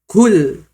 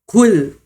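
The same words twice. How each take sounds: Both takes have the same delivery.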